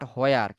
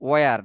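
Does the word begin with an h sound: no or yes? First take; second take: yes; no. First: The word starts with an h before w. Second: The word starts with a plain w sound. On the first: The speaker calls it wrong. "Not হোয়ার" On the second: The speaker calls it right. "ওয়ার, not হোয়ার"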